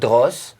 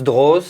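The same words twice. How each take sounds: First: The name ends with a hissing s sound. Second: The name ends with a buzzing z sound. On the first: The speaker calls it wrong. "not Droz, because uh, it's not an S" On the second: The speaker calls it right. "just Droz"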